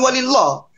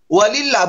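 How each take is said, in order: First: The L of Allah sounds heavy and thick. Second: The L of Allah sounds light and thin. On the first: The speaker calls it wrong. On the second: The speaker calls it right. "dibaca tipis"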